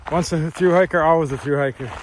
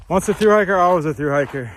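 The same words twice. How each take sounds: First: Said in the usual way. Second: Higher and louder, proudly declared; excited. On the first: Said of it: "Jen always tells me". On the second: Real, not acted. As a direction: proclaim it like a motto. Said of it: "repeats saying emphatically".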